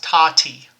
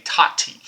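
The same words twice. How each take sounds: First: "Tati" said quickly, syllables run together; said fast. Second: "Tati" said slowly, each syllable apart. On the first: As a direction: snap out "Tati" real fast. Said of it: "say that real fast". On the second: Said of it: "we say Tati". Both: Shown as a demonstration.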